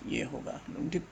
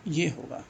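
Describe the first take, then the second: First: Whispered aside to himself. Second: Said in the usual way. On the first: Real, not acted. Teacher whispering to himself while checking the answer. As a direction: breathe it out, almost silent.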